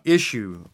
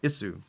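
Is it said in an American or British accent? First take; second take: American; British. First: It is said in an American accent. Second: It is said in a British accent.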